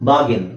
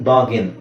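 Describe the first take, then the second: The two takes are said the same way.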